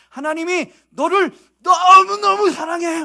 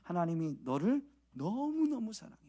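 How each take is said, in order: First: It is said loudly with a raised voice. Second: It is said at a modest, ordinary volume. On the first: The speaker is trying harder to convince. "막 목소리를 높이고 액션을 크게 해야죠" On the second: The message seems unconvincing. "이렇게 하면, 이 정도 하면 별로 안 믿을 것 같잖아요"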